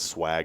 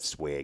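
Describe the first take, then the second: First: It is pronounced the local regional way. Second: It is pronounced the North Dakota regional way. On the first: This is how people here say it. "swag is what we say down" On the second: This is how people up north say it. "but they call it swag"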